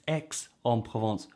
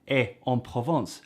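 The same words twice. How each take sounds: First: The x in Aix is sounded. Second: The x in Aix is not sounded. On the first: The speaker calls it right. "you find out no" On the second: The speaker calls it wrong. "You don't pronounce the X"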